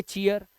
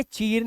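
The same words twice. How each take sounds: First: "चीयर" with ee gliding into a before r; ia glide before r. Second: "चीर" with a plain long ee straight into r; wrong long-ee reading. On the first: Teacher giving the right reading, "चीयर" with an ee-a glide. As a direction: say "चीयर" as chee-ar, two vowel sounds. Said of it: "इसे पढ़ेंगे चीयर". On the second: Teacher showing what not to read, "चीर" with unbroken long ee. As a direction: say "चीर" as one syllable, cheer without glide. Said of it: "ऐसे इसे चीर नहीं पढ़ेंगे". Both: Shown as a demonstration.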